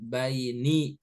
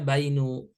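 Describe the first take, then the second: First: The word ends in an i vowel. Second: The word ends in a u vowel. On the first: The speaker calls it right. "harokat terakhirnya kasroh" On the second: The speaker calls it wrong. "gak boleh dibaca bainu"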